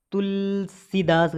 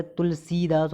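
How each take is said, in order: First: तुलसीदास with held "tul", short "si"; wrong short i. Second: तुलसीदास with long "see". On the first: Teacher showing the error, short-si तुलसीदास. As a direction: clip the si in तुलसीदास. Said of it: "गलत है". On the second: Teacher correcting students, long-see तुलसीदास. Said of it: "होता है". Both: Shown as a demonstration.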